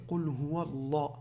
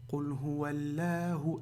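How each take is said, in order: First: The L in Allah sounds heavy and full. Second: The L in Allah sounds light and thin. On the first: The speaker calls it right. "Non, c'est Qul huwa Allah. C'est lourd" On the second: The speaker calls it wrong. "Je ne vais pas dire Qul huwa Allahu"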